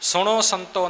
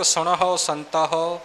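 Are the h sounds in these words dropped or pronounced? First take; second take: dropped; pronounced. First: The h sounds in both words are dropped. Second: The h sounds in both words are pronounced. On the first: The speaker calls it wrong. "ਸੁਣੋ ਸੰਤੋ ਨਹੀਂ ਕਹਿਣਾ" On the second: The speaker calls it right. "ਜੈਸਾ ਲਿਖਿਆ ਤੈਸਾ ਉਚਾਰਨ ਕਰਨਾ ਹੈ"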